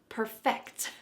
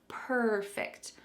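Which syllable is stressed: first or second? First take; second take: second; first. First: The stress is on the second syllable. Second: The stress is on the first syllable. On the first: It is a verb meaning to make something better. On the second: It is an adjective meaning without flaws.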